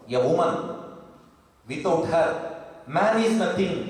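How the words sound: There are pauses after woman and her.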